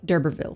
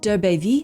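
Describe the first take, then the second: First: The name is pronounced with English sounds. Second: The name is pronounced with French sounds. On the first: The speaker calls it wrong. "in the English way, they say d'Urberville, which is so boring sounding to me" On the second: The speaker calls it right. "I say it in the French way"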